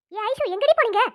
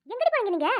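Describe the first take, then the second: First: Put-on teacher loudly scolds late girls; loud scolding. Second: Said in the usual way. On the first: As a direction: call it out louder, demanding. Teacher confronts returning girls.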